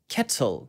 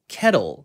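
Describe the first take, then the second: First: British accent, the t is pronounced clearly. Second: American accent, the t slides by softly. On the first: "영국식으로는 kettle, kettle 이렇게 해볼 수 있겠죠" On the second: "미국식으로는 kettle, kettle 그런데요"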